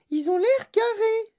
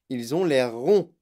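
First: Put-on very high, loud child character voice; Veruca Salt. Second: Loud, slow insistence on "ronds"; insistance. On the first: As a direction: protest in a piercingly high voice. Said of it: "dit Veruca Salt". (voix suraiguë de fillette qui proteste) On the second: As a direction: lean slowly and firmly on "ronds", at normal pitch. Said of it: "insista monsieur Wonka". (insister lentement et fort sur « ronds ») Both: A narrator's reading.

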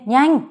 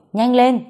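First: Even higher loud cry of "nhanh"; more urgent. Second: Loud hurried urging, pitched higher; urgent. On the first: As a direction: snap out "nhanh" louder and higher than the first. (hét "nhanh" cao và gấp hơn) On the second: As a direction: push her to hurry, loud and high. (giục to, gấp gáp) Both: A narrator's reading. Urgent call to hurry.

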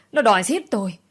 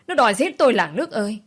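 First: Loud theatrical wail, falling at the end; wailing cry. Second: Higher, louder, faster wail building to a peak. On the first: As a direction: howl it for the crowd to hear. (gào lên ăn vạ) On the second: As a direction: scream it out to the whole village. (gào to hơn, dồn dập) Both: Acted. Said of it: "vừa gào".

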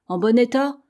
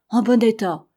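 First: "En bon état" rising high on "état"; questioning. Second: "En bon état" firm, falling at the end; confirming. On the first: Captain checks on the sledge with Simpson, questioning. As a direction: ask it, lifting "état" at the end. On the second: Simpson reassures the captain about the sledge, confirming. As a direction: answer with weight on "bon", dropping on "état". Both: A narrator's reading.

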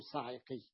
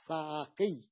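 First: صاعقي said with i after the 'ayn, "sa'iqi"; wrong vowel. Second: صاعقي said with a after the 'ayn, "sa'aqi"; middle fatha. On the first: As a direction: keep a kasra on the 'ayn of صاعقي. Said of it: "ولا تقول صاعقي". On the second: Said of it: "تقول صاعقي". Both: Shown as a demonstration.

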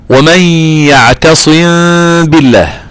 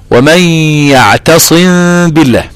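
First: Very slow "يعتصم بالله" with a held nasal hum on the meem; تلاوة "يعتصم بالله" ببطء مع الغنة; Quranic recitation with ghunna. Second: Slow, nasal-humming "يعتصم بالله" with the م held into the ب; تلاوة بغنة في "يعتصم بالله"; Quranic recitation with ghunna. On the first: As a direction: chant "يعتصم بالله" slowly, meem hidden with ghunna of two counts. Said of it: "عندك غنة مقدار حركتين". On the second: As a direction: recite "يعتصم بالله" drawing out the hidden meem with a nasal hum. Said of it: "يعتصم بالله، عندك غنة مقدار حركتين". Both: Shown as a demonstration.

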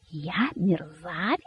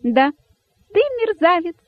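First: Soft, slow, stunned question; hushed, drawn-out incredulous anger; speechless with anger. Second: Very high, squeaky jubilation; cheeky high-pitched little cry; gleefully shouting rabbit. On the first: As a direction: repeat it slowly, choked back with outrage. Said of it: "не находя слов от гнева". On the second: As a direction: pipe the insult out with joy. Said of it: "радостно закричал дерзкий кролик". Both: A narrator's reading.

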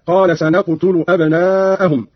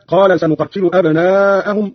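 First: سنقتل with "na", still qaf, "tu"; light unshadda'd form. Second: Said in the usual way. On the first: Shown as a demonstration. Teacher shows Qalun's reading, سنقتل said "sanaqtulu". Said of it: "وضم التاء هكذا". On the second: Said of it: "قرأ قالون بفتح النون".

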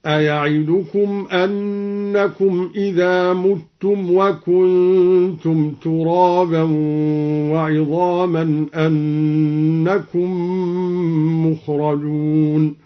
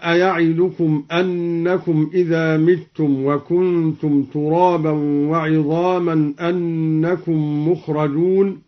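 First: Slow recitation, متم said "muttum" with u; recited with damma. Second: Said in the usual way. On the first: Shown as a demonstration. Teacher demonstrates al-Duri's reading, slowly reciting متم as "muttum". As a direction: draw out the verse, u on the first syllable of متم. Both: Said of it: "قرأ الدوري بضم الميم هكذا".

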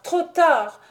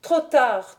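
First: Much higher and louder furious cry; fury breaking into a scream; growing fury. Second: Louder, angry cry; mounting anger, first cry; growing fury. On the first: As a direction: let the rage peak. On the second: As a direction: start the rising rage. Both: A narrator's reading. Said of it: "avec une fureur croissante".

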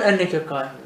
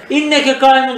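First: Enneke said with an open e, en-ne-ke; pronounced with enne. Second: İnneke said with a clear front i, in-ne-ke; İnneke with an i, not Enneke; pronounced with inne. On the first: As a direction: open Enneke on a broad e sound, not i. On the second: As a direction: start İnneke on a sharp i sound, not e. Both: Shown as a demonstration. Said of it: "İnneke kaimun desem bile adam onu ne anlar".

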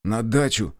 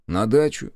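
First: "На дачу" as a short, falling order; grumpy grunt. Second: "На дачу" as a rising question; surprised echo. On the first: A narrator's reading. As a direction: grunt "На дачу" with a sulky final drop. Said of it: "буркнул он наконец". (буркнув «На дачу») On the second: Acted. Driver echoes the order, surprised. (удивлённо переспрашивая «На дачу»)

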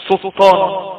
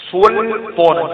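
First: "سلطان" with the l swallowed into a doubled t; wrongly merged lam. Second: "سلطانا" with the l fully sounded before the t; clear lam. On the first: Teacher shows students what cannot be said, lam merged. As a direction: say "سلطان" as sut-taan, dropping the l. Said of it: "ما ينفعش تقول". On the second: Teacher shows students a lam that appears, clearly pronounced. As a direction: articulate a distinct l in "سلطانا": sul-taana. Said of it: "تظهر يعني تبان". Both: Shown as a demonstration.

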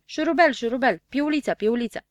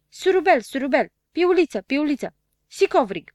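First: Said in the usual way. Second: High, loud nasal playback voice with hissed s; lisping nasal machine. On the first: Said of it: "se aplecă spre deschizătură și zise". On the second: A narrator's reading. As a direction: squeal it back like a lisping talking machine. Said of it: "sâsâi cu o voce fonfăită". (voce fonfăită și sâsâită, de aparat)

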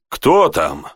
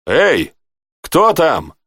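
First: Said in the usual way. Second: Calling out, pitched higher; a light hail to whoever is there. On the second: A narrator's reading. Rey hails the unseen guard at the gate, calling out. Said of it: "окликнул Рэй".

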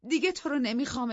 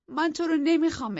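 First: دیگه hit first and highest; rejecting him, stress on دیگه. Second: نمیخوام pressed loud with a falling tune; نمیخوام stressed in a loud rejection. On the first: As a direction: lean on دیگه, rest falls away. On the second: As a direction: hit نمیخوام hard and let it fall. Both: Acted.

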